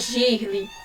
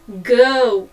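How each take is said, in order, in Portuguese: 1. A palavra termina com um som de vogal acrescentado. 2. A palavra termina na consoante, sem vogal acrescentada. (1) "não é para pronunciar girly" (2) "Você vai pronunciar girl"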